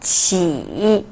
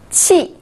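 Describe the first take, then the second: First: The pitch dips low, then rises. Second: The pitch falls sharply from high.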